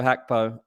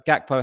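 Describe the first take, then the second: First: "Hakpo" opening on an h; corrected pronunciation. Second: "Gakpo" opening on a hard g; uncorrected pronunciation. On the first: Guest correcting to the learned version, "Hakpo" with H. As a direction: say "Hakpo" with H as in hat. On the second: Guest running through both versions of the name, "Gakpo" with G. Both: Shown as a demonstration. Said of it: "Someone has corrected me in the past".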